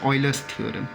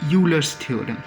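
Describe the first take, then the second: First: The name begins with an 'oy' sound. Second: The name begins with a 'yoo' sound.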